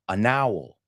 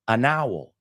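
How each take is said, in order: No difference in how they are said.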